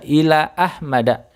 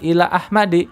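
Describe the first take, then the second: First: The name ends with an 'a' vowel. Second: The name ends with an 'i' vowel. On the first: The speaker calls it right. "bagus ya" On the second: The speaker calls it wrong. "di sini bukan ila Ahmadi"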